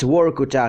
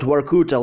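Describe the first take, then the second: First: The name is pronounced the native Russian way. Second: The name is pronounced the way the game says it. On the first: The speaker calls it right. "it's Vorkuta" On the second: The speaker calls it wrong. "not Vorkuta like they call it in the game"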